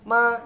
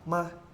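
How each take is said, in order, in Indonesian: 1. Diucapkan dengan nada pertama. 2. Diucapkan dengan nada netral. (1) "Nada satu" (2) "Terus nada netral"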